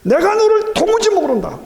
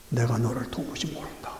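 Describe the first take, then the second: First: Much higher and louder, 너를 hit hard; thundering rebuke. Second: Low, soft, deliberate pronouncement; quiet voice of the Lord. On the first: Preacher voicing the Lord's rejection of the boaster, thundering. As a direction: shout it out like judgment falling. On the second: Preacher quoting the Lord's rejection, low and hushed. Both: Acted.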